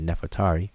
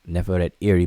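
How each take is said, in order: First: The name is said fast as one word. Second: The name is said slowly in separate parts.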